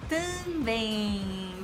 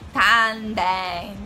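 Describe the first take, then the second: First: The vowels are strongly nasal. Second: The vowels are oral, without nasal resonance. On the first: The speaker calls it right. "Também, também" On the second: The speaker calls it wrong. "Não é também. Não, não é assim"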